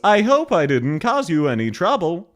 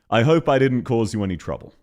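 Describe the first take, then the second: First: Pitch keeps moving up and down throughout. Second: Pitch rises once and falls once. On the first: "constantly varying" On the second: "I go up for one syllable total and down for one syllable total"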